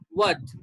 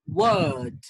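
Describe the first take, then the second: First: The vowel is short and clipped. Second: The vowel is stretched out and long. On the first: The speaker calls it wrong. "many people pronounce this word, this one, as what ... No, it's wrong" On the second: The speaker calls it right. "It's a bit long"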